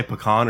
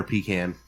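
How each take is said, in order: First: "pecan" as puh-KAHN, open AH ending. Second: "pecan" as PEE-can, long EE first. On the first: Host offers co-hosts one option, "pecan" said puh-KAHN. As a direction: say "pecan" with a short first syllable and stressed KAHN. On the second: Host offers co-hosts the other option, "pecan" said PEE-can. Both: Shown as a demonstration. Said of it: "do you guys say pecan or pecan".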